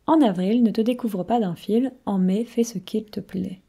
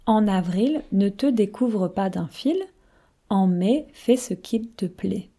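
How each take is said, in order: First: It is said at a faster pace. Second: It is said at a slower pace.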